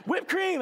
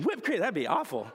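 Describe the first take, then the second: First: Put-on much higher, loud toddler squeal on Whipped cream; toddler's whipped cream. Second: Said in the usual way. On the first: Correcting himself, redoes the toddler's high squeal. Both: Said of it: "I almost said shaving cream".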